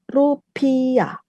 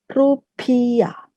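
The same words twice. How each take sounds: No difference in how they are said.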